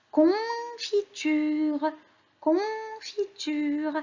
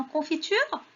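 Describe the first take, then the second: First: "confiture" high, very slow, "con" held; sounding out. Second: Said in the usual way. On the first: Shown as a demonstration. Teacher names the next picture for children, sounding it out. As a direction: draw "confiture" out syllable by syllable.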